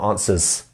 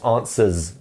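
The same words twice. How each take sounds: First: The word ends with a hissing s sound. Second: The word ends with a buzzing z sound. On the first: The speaker calls it wrong. "not answers" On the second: The speaker calls it right. "we end that with a Z. It's, it's almost like a Z here"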